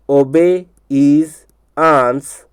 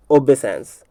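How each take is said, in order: First: "obey is ans" stretched very slowly; broken into parts. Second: Said in the usual way. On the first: Shown as a demonstration. Teacher drilling a spelling trick, broken into parts. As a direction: say "obey is ans" piece by piece with gaps. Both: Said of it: "इसलिए इसको तोड़ करके बता रहा हूँ".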